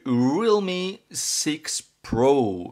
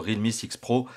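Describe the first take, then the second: First: The name is said with an English accent. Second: The name is said with a French accent.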